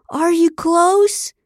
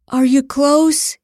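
First: High, very slow, hammed-up moaned question; loud mock moan. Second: Slow, higher, louder question in faked passion; mock gasp. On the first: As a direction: moan it out for the cameras, stretched and rising. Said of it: "He moaned louder now and asked again". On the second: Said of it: "he gasped". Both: A narrator's reading.

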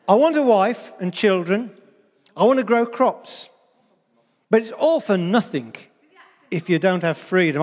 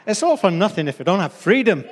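First: Said in the usual way. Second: Put-on amateur stab at a Scottish accent; attempted Scottish accent. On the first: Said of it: "these are words of William Wallace from the film". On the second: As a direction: have a rough go at Scottish, with force. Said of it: "I can't do the Scottish accent".

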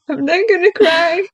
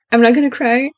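First: Higher-pitched pretend near-crying, rising at the end; hammed-up brave face, voice climbing; mock tearful. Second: Said in the usual way. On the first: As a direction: playfully wail it, as if holding back tears. Mock self-reassurance, about to cry.

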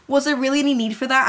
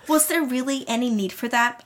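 First: Quick, understated indignant question; mildly furious. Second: Said in the usual way. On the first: A narrator's reading. Heroine challenging her bully over the slush, mildly furious. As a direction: ask it fast with a touch of anger. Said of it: "I asked her furiously". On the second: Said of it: "That's not how you ask".

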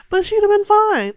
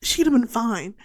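First: "fine" thrown out much higher and louder; exasperated outburst. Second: Said in the usual way. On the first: Real, not acted. Viewer yelling at the movie character that she'd have been fine. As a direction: burst out in disbelief at the character.

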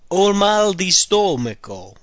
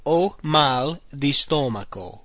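First: Slow, careful model phrase. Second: Slow, deliberate repeat. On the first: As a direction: say each word clearly. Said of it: "The next one is". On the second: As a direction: repeat it slowly for learners. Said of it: "I have bad of the stomach". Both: Shown as a demonstration.

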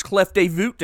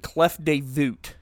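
First: Mangle Clef de Voûte like a tourist; bad French. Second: Clef de Voûte repeated slowly in the same anglicized way, klef tay voot; slow clumsy Clef de Voûte; bad French. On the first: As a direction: Clef de Voûte anglicized, kleff day voot. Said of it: "That's my French". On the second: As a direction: say Clef de Voûte again as a clumsy tourist would. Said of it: "which is not how you pronounce that word". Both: Shown as a demonstration.

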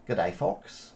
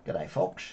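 First: Put-on a light stab at an Australian accent, greeting the viewers; mock Australian accent. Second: A hammed-up Australian "Good day, folks", ending in a rise; a playful Australian accent, the greeting tried once more; mock Australian accent. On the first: Vlogger greets his viewers in a light mock Australian accent. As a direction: say "Good day" as an Aussie "G'day". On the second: Vlogger repeats his greeting in a playful Australian accent. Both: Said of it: "It's my Australian accent".

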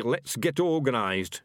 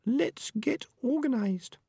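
First: Slow, scornful quoting, raised pitch; sharp. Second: Very high, slow small rat voice; Peaches, young female rat. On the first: Ham and Pork quotes Peaches back at her, sharp and slow. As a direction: throw the words back sharply. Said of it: "he said sharply". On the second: Peaches proposes action to the rats, high and slow. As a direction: suggest it slowly in a high-pitched voice. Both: A narrator's reading.

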